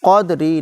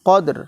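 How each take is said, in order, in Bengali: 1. শব্দটির শেষে একটি যুক্ত হ্রস্ব 'i' স্বরধ্বনি আছে। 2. শব্দটি কোনো স্বরধ্বনি ছাড়া ব্যঞ্জনে শেষ হয়। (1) "কদরি না" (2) "কদর, এখানে থামতে হবে"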